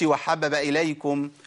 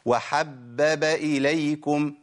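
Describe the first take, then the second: First: One of the three b sounds is dropped. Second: All three b sounds are clearly pronounced. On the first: The speaker calls it wrong. "ما أقولش وحبب إليكم" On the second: The speaker calls it right. "لازم أنطق إيه؟ ثلاث باءات"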